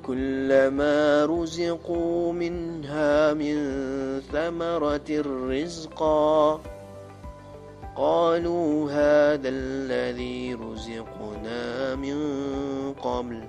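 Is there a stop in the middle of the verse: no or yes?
yes. It stops after rizqa before continuing. The speaker calls it wrong. "cara bacaan yang salah"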